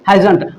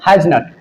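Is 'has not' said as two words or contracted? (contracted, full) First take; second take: contracted; full. First: It is contracted into one short word. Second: It is said as two full words. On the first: "तो short में बोलते हैं इसको हैजंट।" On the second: "एक word use होता है हैज नट।"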